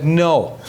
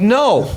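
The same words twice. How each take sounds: First: Contained, retold refusal at normal pitch; a restrained no, acted out in the telling. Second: Higher, more forceful retold no; an emphatic, annoyed no, acted out; mad refusal. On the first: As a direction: refuse without raising the voice. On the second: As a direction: refuse with mounting anger, pitch jumping up. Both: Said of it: "now I'm mad".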